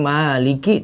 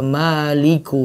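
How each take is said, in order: First: The word ends with an i vowel. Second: The word ends with a u vowel. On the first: The speaker calls it right. "harusnya maliki" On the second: The speaker calls it wrong. "tapi dia baca maliku"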